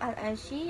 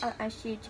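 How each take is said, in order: First: The word ends in a doubled y sound. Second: The word ends in a j sound. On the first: "menggantikan ya bertasydid dengan jim" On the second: "yang dibaca menjadi"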